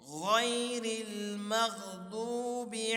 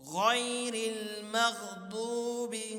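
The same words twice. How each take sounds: Both takes have the same delivery.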